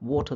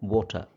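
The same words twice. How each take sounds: First: The word is said in a less standard way. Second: The word is said in a more standard way.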